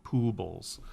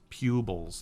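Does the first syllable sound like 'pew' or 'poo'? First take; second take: poo; pew. First: The first syllable sounds like 'poo'. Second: The first syllable sounds like 'pew'. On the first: The speaker calls it wrong. "not poobles" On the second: The speaker calls it right. "it's pupils"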